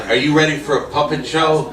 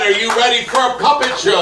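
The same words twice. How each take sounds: First: Emcee question. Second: Shouted, much higher hype call; announcer yelling to the back row; louder emcee call. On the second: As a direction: rouse the crowd with a big shouted repeat. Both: Acted. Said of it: "I said".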